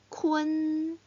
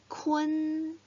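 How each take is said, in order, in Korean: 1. 희미한 e 같은 모음이 n 앞에 옵니다. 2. 희미한 e 같은 모음이 n 앞에 옵니다.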